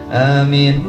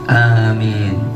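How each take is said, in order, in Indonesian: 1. Kedua vokalnya diucapkan pendek dan cepat. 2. Kedua vokalnya diucapkan panjang. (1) "aminnya pendek" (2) "A-nya panjang, minnya panjang"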